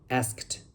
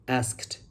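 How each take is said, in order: Both takes have the same delivery.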